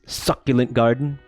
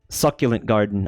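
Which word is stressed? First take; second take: garden; succulent. First: The stress falls on the second word. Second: The stress falls on the first word. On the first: The garden itself is juicy. The speaker calls it wrong. "It's not like it's a it's a succulent garden" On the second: It is a garden full of succulent plants. The speaker calls it right. "It's a garden of succulents"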